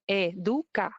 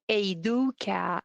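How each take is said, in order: First: The name is said with a Spanish pronunciation. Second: The name is said with an English-style pronunciation. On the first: The speaker calls it right. "the way to pronounce it is" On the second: The speaker calls it wrong. "I hear a lot of Educa. Eh, no"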